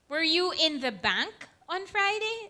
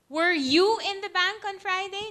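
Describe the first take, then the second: First: The word bank carries the main stress. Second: The word you carries the main stress. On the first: The question is about being at the bank rather than elsewhere. "I wasn't in the bank. I worked on Friday" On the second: The question is about this person rather than someone else. "Not me, but my sister was"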